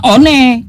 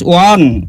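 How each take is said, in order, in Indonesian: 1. Dibaca huruf demi huruf sebagai ejaan Indonesia. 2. Diucapkan cara Inggris, seperti won. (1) "sudah diterjemahkan di Indonesia, ba- bacanya harusnya" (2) "Ini kan bahasa Inggris"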